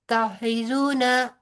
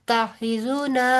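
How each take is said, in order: Both takes have the same delivery.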